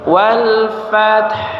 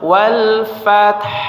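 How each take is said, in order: First: It ends with an audible breathy h after t. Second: It ends with an audible breathy h after t.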